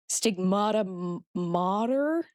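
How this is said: The final R is sounded in an American accent. "I can't do an American accent today"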